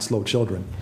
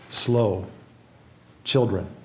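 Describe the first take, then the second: First: Slow and children run together without a break. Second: There is a break between slow and children. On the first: The speaker calls it wrong. "not slow children" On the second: The speaker calls it right. "it's slow and then children separately"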